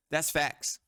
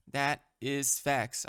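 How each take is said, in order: First: Said in the usual way. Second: That is facts, said very slowly with every word weighted; slow emphatic. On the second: Shown as a demonstration. Insisting to viewers that the point is true, slow and emphatic. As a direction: lean on each word of That is facts.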